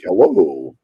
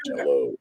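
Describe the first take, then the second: First: Slow, neutral American newscaster's "hello"; drawn-out, carefully neutral General American; accentless news voice. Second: Lower, softer neutral American "hello"; quiet, unmarked broadcast accent; accentless news voice. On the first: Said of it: "actors and news people are taught". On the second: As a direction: toss off a generic, accent-free hello. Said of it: "there is no accent". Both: Shown as a demonstration.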